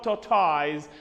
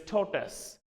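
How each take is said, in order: First: "tortoise" said as tor-TOYZ; wrong pronunciation. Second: "tortoise" said as TOR-tus, weak ending; correct pronunciation. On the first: Teacher shows what not to say, tortoise as tor-toyz. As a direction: end tortoise with a long toys sound. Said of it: "It's not tortoise". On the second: Teacher corrects students, tortoise as TOR-tus. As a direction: reduce the end of tortoise to tus. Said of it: "it is tortoise". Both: Shown as a demonstration.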